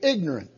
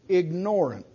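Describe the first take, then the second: First: It is said with the usual, common pronunciation. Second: Its first part sounds like the word 'ignore'. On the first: Someone lacks knowledge. "We generally say ignorant" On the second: Someone does not want knowledge. "it's also pronounced ignorant"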